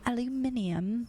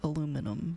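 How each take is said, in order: First: It has five syllables, ending in -inium. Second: It has four syllables, ending in -inum. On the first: It sounds more fancy. The speaker calls it right. "I prefer the British pronunciation of it" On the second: It sounds less fancy. The speaker calls it wrong. "than being like aluminum"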